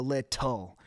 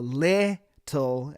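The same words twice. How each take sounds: First: "little" with the ending syllable, TUL, emphasized and stretched; stress on TUL in "little". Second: "little" with the first syllable, LIT, drawn out and punched; stress on LIT in "little". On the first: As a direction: land firmly on the final TUL of "little". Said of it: "emphasizing the tul". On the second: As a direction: lean hard on the LIT of "little", then drop the tul. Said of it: "you really emphasize the". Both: Shown as a demonstration.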